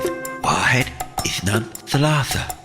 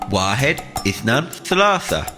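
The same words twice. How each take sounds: First: It is said softly and quietly. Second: It is said at a medium, louder volume. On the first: "Nice and quiet to begin with" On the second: "Now a little bit louder"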